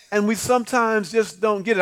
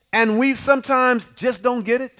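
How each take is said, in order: First: Said in the usual way. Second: Sung lightly over the organ; sung, let the line lilt like a hymn; half-sung. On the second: Shown as a demonstration.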